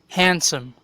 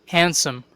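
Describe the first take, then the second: No difference in how they are said.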